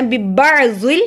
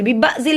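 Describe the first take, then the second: First: बिबाजिल with a throaty ayn after बा; sounded ayn. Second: बिबाजिल with no throat squeeze after बा; plain open बा in बिबाजिल; missing ayn. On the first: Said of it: "आइन की बात करें". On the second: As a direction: skip the throat sound in बिबाजिल as a mistake. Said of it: "बिबाजिल नहीं पढ़ना". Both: Shown as a demonstration.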